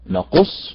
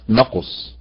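First: The stress is on the second syllable. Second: The stress is on the first syllable. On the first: It means 'we narrate'. The speaker calls it right. "اذا النبر على حركة القاف" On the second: It means 'shortage'. The speaker calls it wrong. "وليست"

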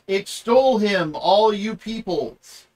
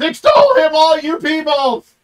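First: It is said calmly, without exclamation. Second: It is said excitedly, in a high-pitched voice.

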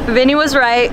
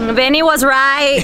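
First: The words are said at a quieter volume. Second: The words are said at a louder volume.

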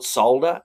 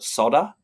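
First: The L sound is pronounced in the word. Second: The L sound is left out of the word. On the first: The speaker calls it right. "They don't call it solder either" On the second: The speaker calls it wrong. "they leave L out of solder"

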